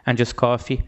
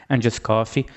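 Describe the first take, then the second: No difference in how they are said.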